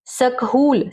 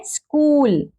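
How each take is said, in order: First: सकहूल split as sak-hool, h sounded; mispronunciation. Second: स्कूल higher, one syllable, h silent; correct pronunciation. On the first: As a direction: read it letter by letter as सकहूल. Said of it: "सकहूल तो नहीं पढ़ते ना". (ह बोलकर सकहूल) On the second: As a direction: run s and k together in स्कूल. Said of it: "एच silent है". (ह चुप रखकर स्कूल) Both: Shown as a demonstration.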